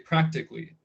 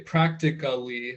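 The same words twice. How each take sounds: First: The ending is shortened, giving three syllables. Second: Every syllable is said fully, giving four syllables. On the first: The speaker calls it right. "you shorten it, it's three syllables" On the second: The speaker calls it wrong. "even though it's spelled A L L Y, I don't say practically"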